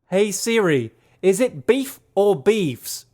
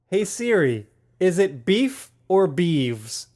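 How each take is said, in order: First: It is said in a put-on Australian accent. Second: It is said in the speaker's usual accent.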